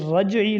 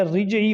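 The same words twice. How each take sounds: First: رجعی opening "ra", as "raj-ee"; careful "raj-" start on رجعی; correct pronunciation. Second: رجعی opening "ri", as "rij-ee"; common mispronunciation. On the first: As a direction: say رجعی with zabar on ra. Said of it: "یہ رجعی لفظ ہے". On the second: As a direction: say رجعی with an "i" first vowel. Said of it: "رجعی وغیرہ نہیں ہے". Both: Shown as a demonstration.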